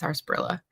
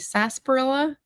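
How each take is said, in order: First: The first syllable is said with an R. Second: The first syllable is said without an R. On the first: It follows the spelling as read. "there's an R in there, so I pronounced it sarsaparilla" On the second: This is how some people commonly say it. "I know some people, I, I think say sarsaparilla"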